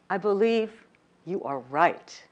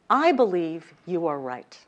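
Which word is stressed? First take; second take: are; I. First: The stress falls on the word are. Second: The stress falls on the word I.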